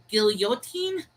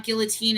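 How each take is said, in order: First: Put-on guillotine as GIL-yo-teen, slowly, questioning; Y pronunciation. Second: Put-on guillotine with the L sounded, GIL-uh-teen; usual English pronunciation. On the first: Checking the chat's correction, guillotine tried slowly with a Y. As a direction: sound a Y after the L in guillotine. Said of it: "with a Y for the". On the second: Checking with the chat, guillotine the familiar way, with an L. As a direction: say guillotine with a clear L and no Y. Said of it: "Guillotine is pronounced with a Y". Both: Shown as a demonstration.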